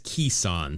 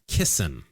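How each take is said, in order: First: The first syllable rhymes with keys. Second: The first syllable rhymes with kiss. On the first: The speaker calls it right. "the pronunciation says Keeson" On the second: The speaker calls it wrong. "I apologize"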